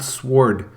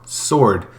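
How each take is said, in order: First: The W sound is pronounced. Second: The W sound is silent. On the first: "But there's a W. So why is it not sword?"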